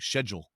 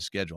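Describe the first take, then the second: First: The word is pronounced the British way. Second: The word is pronounced the American way. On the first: "they say that in England. They they go like schedule" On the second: "instead of schedule"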